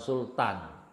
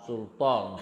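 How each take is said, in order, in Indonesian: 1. Bunyi t diucapkan dengan bunyi biasa yang ringan. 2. Bunyi t diucapkan dengan bunyi emfatik yang berat. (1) "bukan Sultan" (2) "Sultan pakai tok"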